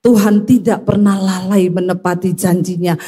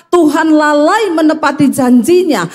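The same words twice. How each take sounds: First: Measured, level recital of scripture; even, assured quoting; scripture quote. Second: Raised-pitch quote of complaining believers; higher, mock complaint; doubters' claim. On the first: Retold or imitated. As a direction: answer the doubters with a steady Bible verse. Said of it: "Tapi ingat Alkitab berkata". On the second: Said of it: "Banyak orang Kristen yang berkata".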